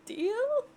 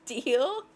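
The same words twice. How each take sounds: First: Deal? squeaked much higher with a sharp rise; squeaky high question. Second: Said in the usual way. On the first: Shown as a demonstration. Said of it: "repeats the deal offer high". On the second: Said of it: "repeats the deal offer".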